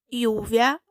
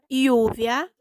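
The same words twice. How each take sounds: Both takes have the same delivery.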